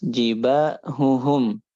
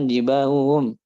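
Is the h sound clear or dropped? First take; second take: clear; dropped. First: The h sounds are pronounced clearly. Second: The h sounds are swallowed and dropped. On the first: The speaker calls it right. "harus jelas" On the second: The speaker calls it wrong.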